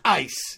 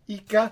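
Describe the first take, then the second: First: The word is said with one syllable. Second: The word is said with two syllables. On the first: The speaker calls it right. "no, it's ice" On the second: The speaker calls it wrong. "How do you pronounce that? Ica?"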